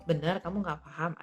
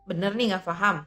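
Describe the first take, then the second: First: It sounds like a sincere, neutral checking question. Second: It sounds annoyed and incredulous, with changed intonation. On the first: The speaker genuinely wants to confirm the listener does not understand. "Yang pertama lebih kepada um, konfirmatif gitu, konfirmasi ya" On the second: The speaker cannot believe something so simple was not understood. "intonasinya juga berbeda ... kita bernada kayak kesal gitu"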